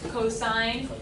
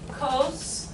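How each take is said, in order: First: It is said as two full syllables. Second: It is said as one short syllable. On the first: The speaker calls it right. "really practice saying that as cosine" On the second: The speaker calls it wrong. "if you say uh, cos, I will just be politely interrupting you"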